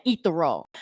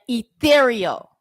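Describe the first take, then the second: First: "ethereal" squashed to EE-ther-oh; mispronunciation. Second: ETHEREAL stressed on the second syllable, drawn out; careful pronunciation. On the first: Retold or imitated. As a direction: say "ethereal" with first-syllable stress, losing the middle "ee". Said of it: "because it has the pronunciation of ethereal". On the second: Shown as a demonstration. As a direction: say "ethereal" slowly as ee-THEER-ee-oh. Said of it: "You can pronounce every other word so damn correctly".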